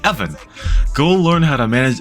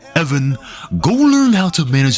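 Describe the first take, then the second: First: It is said in the speaker's normal voice. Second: It is said in a put-on imitated voice. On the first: The speaker calls it wrong. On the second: The speaker calls it right.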